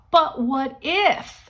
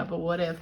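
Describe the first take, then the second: First: "But what if?" slow, high and rising with wonder; hopeful what if. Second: Said in the usual way. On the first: Shown as a demonstration. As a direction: say "But what if?" as a thrilling new idea. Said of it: "so you say it that way to yourself".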